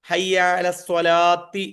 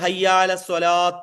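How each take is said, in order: First: The last word ends in a 'ti' sound. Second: The last word ends in a bare t sound. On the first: The speaker calls it right. "ഒന്നുകിൽ ഹയ്യാല സ്വലാത്തി ഹയ്യാല സ്വലാത്തി എന്ന് പറയാം" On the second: The speaker calls it wrong. "ചിലര് ഹയ്യാല സ്വലാത്ത് എന്ന് പറയും. അങ്ങനെ പറയരുത്"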